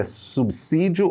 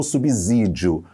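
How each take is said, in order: First: SUBSÍDIO with a hissed S sound after the B. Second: SUBSÍDIO with a buzzing Z sound after the B. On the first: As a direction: say "subsídio" with an S, like "sub-sídio". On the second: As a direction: say "subsídio" with a Z, like "subzídio". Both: Shown as a demonstration. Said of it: "se é som de S ou som de Z".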